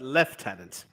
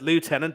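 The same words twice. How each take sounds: First: It is said the British way, left-tenant. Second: It is said the American way, loo-tenant. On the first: The speaker calls it right. "just like the Brits do" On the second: The speaker calls it wrong. "you don't pronounce it lieutenant"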